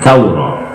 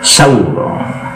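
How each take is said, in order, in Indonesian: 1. Kata ini dimulai dengan bunyi 'th'. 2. Kata ini dimulai dengan bunyi 's'. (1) "kalau bahasa fuskanya saurah" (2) "Tapi diganti sin"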